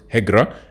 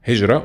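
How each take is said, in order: First: The middle consonant is a hard g sound. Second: The middle consonant is a soft j sound. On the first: "Masri will pronounce it Higra" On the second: "it is Hijra"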